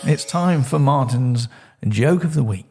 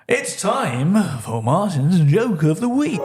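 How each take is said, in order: First: It is said plainly with little build-up. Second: It is said dramatically with a bigger build-up.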